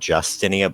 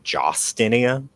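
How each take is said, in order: First: The first syllable sounds like 'Jus'. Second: The first syllable sounds like 'Jos'. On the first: This is how the name is usually said. "her name is not Justinia" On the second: This is how the name is spelled. "but Jostinia"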